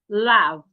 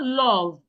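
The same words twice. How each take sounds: First: The vowel is unrounded with the mouth slightly open. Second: The vowel is rounded with the mouth wide open. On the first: The speaker calls it right. "it is love ... Just open your mouth a bit" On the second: The speaker calls it wrong. "So it is not love, ... Can you see that my mouth didn't, is not rounded? And I didn't open my mouth wide"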